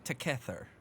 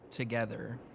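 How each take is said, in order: First: The g sounds like k and th like t. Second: It has a soft g and th sound. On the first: "the G turns to a K and the T H turns to one" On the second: "In English, obviously, we say that together"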